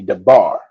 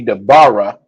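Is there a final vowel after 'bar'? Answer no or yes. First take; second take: no; yes. First: The word ends on bar without a vowel. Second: A final vowel is sounded after bar. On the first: The speaker calls it right. "It's just the first part of the sound is pronounced" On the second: The speaker calls it wrong. "most often that last letter is not pronounced"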